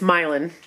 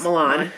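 First: The name does not sound like the Italian city. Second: The name sounds like the Italian city. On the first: It names the speakers' own hometown. The speaker calls it right. "it's Milan, not Milan. Like Italy, it's not like Italy" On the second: It names the city in Italy. The speaker calls it wrong. "not Milan. Like Italy"

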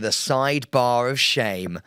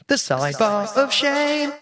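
First: It is said in the speaker's normal voice. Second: It is said in a different, put-on voice.

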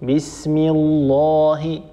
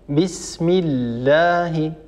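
First: The long a vowel sounds thick and heavy. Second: The long a vowel sounds thin and light. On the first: The speaker calls it wrong. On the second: The speaker calls it right.

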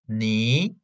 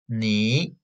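No difference in how they are said.

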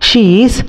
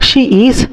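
The two takes are said the same way.

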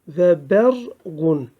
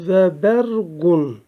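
No difference in how they are said.

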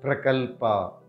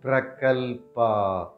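First: It is said at normal speed. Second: It is said slowly.

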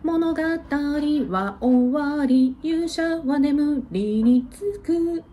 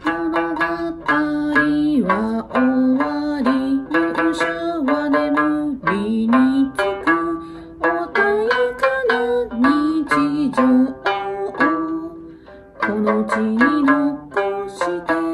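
First: It is said at a normal speed. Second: It is said slowly and deliberately.

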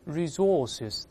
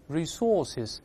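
First: The stress is on the second syllable. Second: The stress is on the second syllable.

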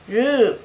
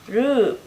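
First: The vowel is drawn out long. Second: The same.

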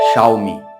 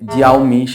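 First: It begins with a 'shao' sound. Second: It begins with a 'jee' sound. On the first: The speaker calls it right. "আসলে এটার সঠিক উচ্চারণ হবে শাওমি" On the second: The speaker calls it wrong. "অনেকে এটার উচ্চারণ করে জিয়াওমি"

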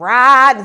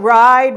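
First: The vowel has a country twang. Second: The vowel sounds plain and standard. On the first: The speaker calls it right. "he has a little bit of a country feel to his voice too" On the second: The speaker calls it wrong. "not ride"

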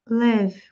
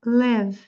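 The two takes are said the same way.

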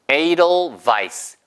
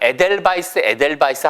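First: The first syllable sounds like 'ay', then 'dol'. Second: The first syllable sounds like 'eh', then 'del'. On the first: The speaker calls it right. "영어식 발음은 에이돌이에요" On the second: The speaker calls it wrong. "우리가 에델바이스 하잖아요"

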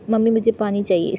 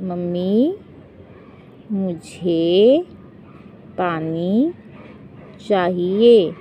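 First: The words run together quickly without pauses. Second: The words come slowly with short gaps between them. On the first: The speaker calls it wrong. "Spin बोला" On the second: The speaker calls it right. "ऐसे नहीं बोलो"

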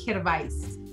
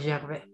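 First: The name is read with Chilean Spanish sounds. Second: The name is said with French sounds. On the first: "lo voy a leer como en chileno" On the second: "como en acento francés"

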